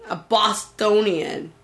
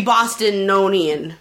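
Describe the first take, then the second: First: "Bostonian" said carefully and correctly, slowly; slow, careful fix of "Bostonian"; corrected Bostonian. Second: "Bostononian" with an extra "no" syllable, said slowly; mispronounced Bostonian. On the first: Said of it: "You Bostonian?". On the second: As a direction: stumble into "Bostononian" with a proud tone. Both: Real, not acted.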